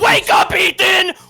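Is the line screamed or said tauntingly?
screamed. It is screamed in an angry, loud voice. The speaker calls it wrong. "Not like that"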